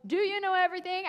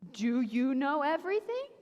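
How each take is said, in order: First: Booming God voice, fast and raised; loud thunder. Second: Mocking rise on "everything"; sarcastic question. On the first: Retold or imitated. God thundering at Job, mild mock boom. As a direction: throw "you" out like thunder. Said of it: "in this loud thunder and goes". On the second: God needling Job, sarcastic rise. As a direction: tease with "everything?" lifted up. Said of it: "a little sarcastic".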